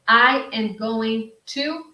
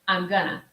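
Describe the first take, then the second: First: Every word is said fully and separately. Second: The words are squeezed into a short contracted form.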